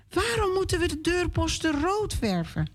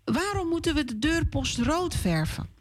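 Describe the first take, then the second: First: Put-on high, curious little girl voice; a lightly voiced child asking; child's question. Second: Put-on high child voice with moeten stressed; a lightly voiced girl asking once more; child's question again. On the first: Hanna asks papa why, in a high child's voice. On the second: Hanna repeats her question to papa, high. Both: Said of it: "vraagt Hanna aan haar papa".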